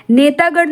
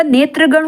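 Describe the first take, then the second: First: नेतागण with -taa in the middle; long aa, no r in नेतागण; wrong form. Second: Said in the usual way. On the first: Shown as a demonstration. Teacher rejects a misspelling, नेतागण with long middle aa. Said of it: "नेतागण नहीं होगा". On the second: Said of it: "नेत्रगण होगा".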